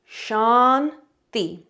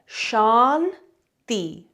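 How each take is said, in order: No difference in how they are said.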